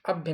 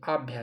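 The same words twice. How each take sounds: First: "अभ्य" with a short opening a. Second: "आभ्या" with long aa vowels. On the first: Teacher rejects the spelling, अभ्य with short first vowel. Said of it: "अभ्य नहीं". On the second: Teacher points out the vowel sign, आभ्या with long आ. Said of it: "यानी आ की मात्रा". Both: Shown as a demonstration.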